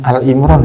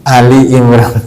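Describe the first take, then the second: First: The first word is one short syllable. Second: The first word has two syllables. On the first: The speaker calls it wrong. "ada yang salah biasanya" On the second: The speaker calls it right. "yang betul"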